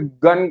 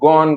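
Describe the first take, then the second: First: The vowel is a short, unrounded 'uh' sound. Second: The vowel is an open, rounded 'aw' sound. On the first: The speaker calls it wrong. "इसको भी गन कहना चाहिए" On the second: The speaker calls it right. "लेकिन इसको गॉन कहते हैं"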